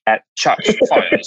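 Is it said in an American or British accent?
British. It is said in a British accent.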